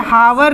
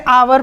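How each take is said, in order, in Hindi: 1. यह शब्द h ध्वनि से शुरू होता है। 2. यह शब्द स्वर से शुरू होता है, इसमें h नहीं है। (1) "हावर नहीं पढ़ते" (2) "हम इसे आवर पढ़ते हैं। ये एच साइलेंट हो जाता है"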